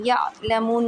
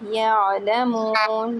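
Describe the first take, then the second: First: The 'ain is hit with a sharp jolt. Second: The 'ain flows smoothly with no jolt. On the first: The speaker calls it wrong. "आइन में झटका देते थे, यालमून नहीं है" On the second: The speaker calls it right. "झटका नहीं देना है"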